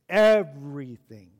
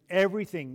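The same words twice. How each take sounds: First: It is said with strong emphasis. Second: It is said plainly, without extra emphasis.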